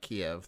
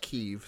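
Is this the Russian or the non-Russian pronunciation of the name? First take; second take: Russian; non-Russian. First: The name is said the Russian way. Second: The name is said the non-Russian way. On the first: This carries a Russian, almost slur-like framing. The speaker calls it wrong. "That's a Russian pronunciation of Kyiv" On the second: This is the proper name of the city. The speaker calls it right. "And it's Kyiv"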